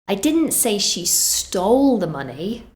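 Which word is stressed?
stole. The word 'stole' carries the main stress. She got it some other way. "so that suggests she did something else"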